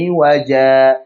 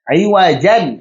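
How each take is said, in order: First: The word ends on a lengthened 'a' vowel. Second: The word ends with a short 'an' sound. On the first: The reading stops on this word. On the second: The reading continues into the next word.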